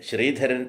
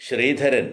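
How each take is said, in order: The two takes are said the same way.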